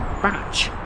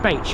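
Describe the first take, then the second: First: The word sounds like 'batch'. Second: The word does not sound like 'batch'. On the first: This is how the name is said locally. The speaker calls it right. "you pronounce it as Batch" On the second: This is how the name is said elsewhere. The speaker calls it wrong. "round here you don't pronounce it as Bache"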